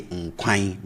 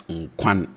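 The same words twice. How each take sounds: First: Nkwan said as n-kwine, nasal end; Twi ein ending. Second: Said in the usual way. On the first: Shown as a demonstration. Teacher says the Twi word for soup. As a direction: Nkwan rhymes with mine. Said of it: "and I say".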